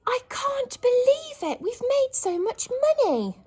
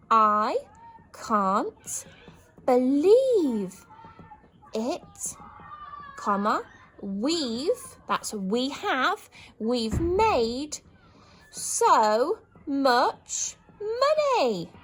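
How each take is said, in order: First: High, loud joyful cry; thrilled disbelief. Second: Loud, word by word, slowing at the end; write-along joyful cry; dictated joy. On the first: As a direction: gasp out joy at the money. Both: Shown as a demonstration. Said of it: "exclamation mark for happiness".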